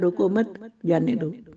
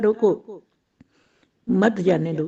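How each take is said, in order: First: The pause comes right after मत. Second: The pause comes right after रोको.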